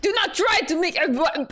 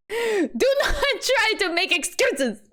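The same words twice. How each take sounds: First: Put-on higher accusing Russian accent, cut off midway; attempted Russian accent. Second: Put-on slow, high, overdone Russian accent; attempted Russian accent. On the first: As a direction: start scolding in a rough Russian accent, then break off. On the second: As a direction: scold emphatically in a drawn-out Russian accent. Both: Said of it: "I'm not very good at Russian accents".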